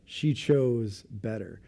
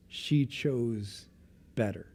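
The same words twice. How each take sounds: First: "She chose better" slowed down, each word weighed; slow emphatic repeat. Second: Said in the usual way. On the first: Shown as a demonstration. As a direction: let "She" land, then draw out "chose better".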